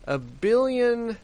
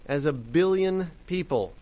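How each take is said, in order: First: "billion" drawn out slowly, pitched much higher and louder; stressed disbelief. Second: Said in the usual way. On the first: Real, not acted. Host repeating the headline's water figure, stunned, stretching out "billion". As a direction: lean hard on "billion", slow and high, aghast.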